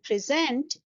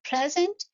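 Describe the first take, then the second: First: The stress is on the second syllable. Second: The stress is on the first syllable. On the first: "we are stressing the second syllable" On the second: "we are stressing the first syllable"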